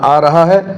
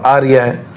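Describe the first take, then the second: First: The verb is said in full as raha. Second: The verb is said reduced as riya. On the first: "ये तो लहजा है, बोली है" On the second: "ये तो लहजा है, बोली है"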